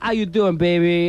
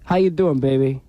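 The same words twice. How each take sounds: First: It is said in a more dramatic way. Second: It is said in a plainer, less dramatic way.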